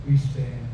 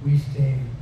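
No difference in how they are said.

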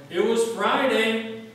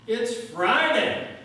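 First: Loud, high, slow preacher's shout. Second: Very loud, high, slow climax shout; yelled at the top of his lungs. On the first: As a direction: drag it out and shout to the rafters. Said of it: "and he shouted". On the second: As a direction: hold each word, full-lunged. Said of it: "he just yelled at the top of his lungs". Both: Retold or imitated.

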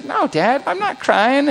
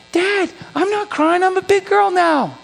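First: Put-on higher voice of a little girl protesting; lightly voiced, higher-pitched child's protest; retold daughter's denial. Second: Put-on high-pitched big-girl protest, stretching "Dad"; exasperated little girl. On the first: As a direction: imitate a child brushing off dad. Daughter's first denial to her dad. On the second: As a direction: imitate a daughter fed up with dad's asking. Daughter's last, emphatic denial to dad.

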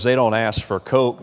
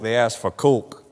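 First: Said in the usual way. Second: "Coke" with a lightly done New York vowel; a hint of New York in "Coke"; New York accent. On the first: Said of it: "New Yorkers". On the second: Shown as a demonstration. Preacher teasing New Yorkers with a light New York accent. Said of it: "New Yorkers, they ask for Coke".

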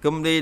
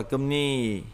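First: Cum đi said "geum-li", l after m; as-spelled reading. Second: Cum ni said "geum-ni", n after m; assimilated reading. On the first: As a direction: keep the liquid in Cum đi. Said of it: "Cum đi đọc là gì?". (đọc Cum đi theo mặt chữ "cưm-li") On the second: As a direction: turn the liquid to n in cum ni. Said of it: "đọc là cum ni". (đọc cum ni với âm n) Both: Shown as a demonstration.

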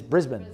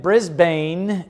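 First: Last Brisbane said as BRIZ-bun; Australian pronunciation. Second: First Brisbane said as BRIZ-BANE; slow Brisbane with a long "bane"; wrong, as spelled. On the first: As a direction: Brisbane with a weak, short "bun" ending. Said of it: "in the Australian language". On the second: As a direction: sound out Brisbane by its spelling, full second syllable. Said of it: "you got your first lesson". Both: Shown as a demonstration.

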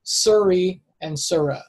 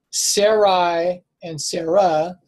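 First: Suri and Surah slowly, SUR-ee then SUR-ah; slow, careful Suri and Surah; original pronunciation. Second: Sarai and Sarah slowly, SAIR-eye then SAIR-uh; slow Sarai with an "eye" ending, then Sarah; similar-sounding names. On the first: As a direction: say Suri and Surah with an "ur" first vowel. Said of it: "I believe, originally as". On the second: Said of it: "it's sounds very similar". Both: Shown as a demonstration.

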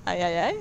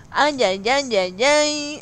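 First: Said in the usual way. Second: Loud, exaggerated Mexican "ay, ay, ay"; acento mexicano. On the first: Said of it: "acento mexicano cuando dice ay". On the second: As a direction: belt it out like a Mexican cheer. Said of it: "su acento mexicano cuando dice ay". (grito mexicano exagerado)

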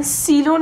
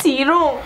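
First: "سیلون" with an L and a final N; mispronounced serum. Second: "سیروم" with an R and a final M; corrected pronunciation. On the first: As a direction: slowly quote the wrong word "سیلون". (تلفظ غلط «سیلون» با لام و نون) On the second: (تلفظ درست «سیروم» با ر و میم) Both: Shown as a demonstration. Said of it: "سیلون نیست سیروم".

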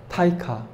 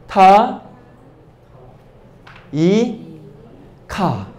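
First: Said in the usual way. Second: 타, 이, 카 each said apart with a long pause between; sounding out syllables. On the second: Shown as a demonstration. Teacher to class, sounding out a new word syllable by syllable. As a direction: break 타이카 into 타, 이, 카 one by one. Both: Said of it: "이렇게 하면 어떻게 발음이 될까요?".

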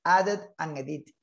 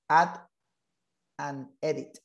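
First: Said in the usual way. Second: Pause after Add. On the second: Shown as a demonstration. Teacher repeats the name word by word.

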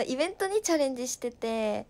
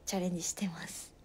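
First: Said in the usual way. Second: Shy whispered confession. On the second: Real, not acted. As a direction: whisper it, a little embarrassed. (照れてささやく)

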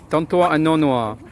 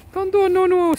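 First: Said in the usual way. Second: Names cooed much higher, sing-song; high cooing names. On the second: Shown as a demonstration. Cooing the pet dogs' names to their owner, much higher. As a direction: coo the names up high like baby talk.

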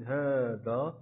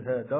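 First: هذا with a long, held "haa"; long alif, right way. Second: هذا said quickly with a short "ha", no held alif; short vowel, wrong way. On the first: Teacher correcting the short reading, هذا with its alif drawn out long. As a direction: stretch هذا out as haa-dhaa. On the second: Teacher showing what not to say, هذا with its alif left short. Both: Shown as a demonstration. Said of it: "لا نقول هذا ولكن هذا".

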